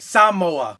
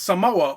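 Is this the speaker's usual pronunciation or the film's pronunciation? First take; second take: film's; usual. First: Said with the pronunciation heard in the film. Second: Said in the speaker's usual everyday pronunciation.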